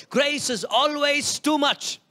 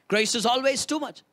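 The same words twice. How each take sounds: First: Slow, with weight on "too"; emphatic slow take. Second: Said in the usual way. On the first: Shown as a demonstration. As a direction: lean hard on "too", slowly.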